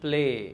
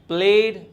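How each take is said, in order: First: The final d sound is dropped. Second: The final d sound is pronounced. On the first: The speaker calls it wrong. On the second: The speaker calls it right.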